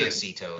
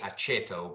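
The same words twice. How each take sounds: First: The name is given an anglicized pronunciation. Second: The name is given an Italian pronunciation. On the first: The speaker calls it wrong. "but I say aceto" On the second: The speaker calls it right. "real Italian people know it's really aceto"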